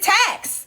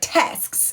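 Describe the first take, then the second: First: The word ends without the final S sound. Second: The word ends with a clear final S sound. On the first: The speaker calls it wrong. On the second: The speaker calls it right.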